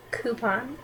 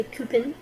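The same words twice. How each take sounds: First: Coupon as "KOO-pahn", rising; coupon, "coo". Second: Coupon as "KYOO-pun", relaxed end; the family way of saying "coupon", "kyoo-pun"; casual home pronunciation of coupon; coupon with sister. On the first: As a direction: say "coupon" starting with a clean "koo". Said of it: "but sometimes with my sister I say coupon". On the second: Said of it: "with my sister I say coupon". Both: Shown as a demonstration.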